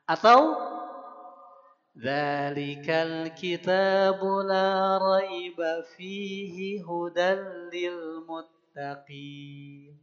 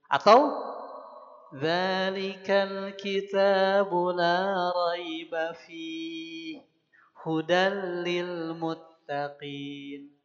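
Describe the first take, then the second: First: There is no pause in the verse. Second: There is a pause after the word fihi. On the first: "atau malah tidak berhenti di keduanya" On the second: "berhenti di salah satu"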